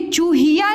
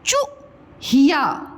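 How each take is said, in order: First: चूहिया with a drawn-out "chooo"; चूहिया said as "chooo-hiyaa"; wrong long vowel. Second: चूहिया with a short "chu", a pause, then "hiyaa"; चूहिया split after a quick chu; correct short vowel. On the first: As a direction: stretch the first vowel of चूहिया. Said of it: "ये चूहिया नहीं होती है". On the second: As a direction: cut the first syllable of चूहिया short. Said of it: "क्या होता है बेटा?". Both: Shown as a demonstration.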